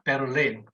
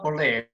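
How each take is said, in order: First: The name is said with a Korean pronunciation. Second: The name is said with an English pronunciation. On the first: "it's Berlin" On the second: "in Korean, Berlin is not Berlin"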